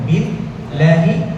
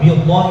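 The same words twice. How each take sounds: First: The l sound is light and thin. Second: The l sound is heavy and thick. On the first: The speaker calls it right. "পাতলা হবে" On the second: The speaker calls it wrong. "বিল্লাহি হবে না"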